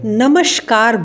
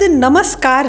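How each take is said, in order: First: The middle consonant is an 'sh' sound. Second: The middle consonant is a plain 's' sound. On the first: The speaker calls it wrong. "बहुत से लोग इसे नमस्कार बोलते हैं" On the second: The speaker calls it right. "शब्द नमस्कार है"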